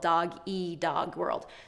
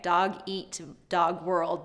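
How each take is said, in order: First: The final t of eat is dropped. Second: The final t of eat is clearly pronounced. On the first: The speaker calls it wrong. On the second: The speaker calls it right.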